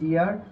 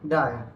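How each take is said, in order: First: The word has an 'ee' vowel. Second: The word has an 'eye' vowel. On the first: The speaker calls it wrong. "এটা উচ্চারণ করি ডিয়ার" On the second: The speaker calls it right. "এটা উচ্চারণ হয়ে যাবে কি"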